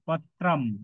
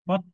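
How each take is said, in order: First: The word ends with a final m sound. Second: The word ends without a final m sound. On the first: The speaker calls it right. "কিন্তু পত্রম" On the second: The speaker calls it wrong. "পত্র না"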